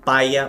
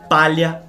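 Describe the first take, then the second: First: The middle consonant becomes a plain 'i' glide. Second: The middle consonant is a palatal 'lh' sound.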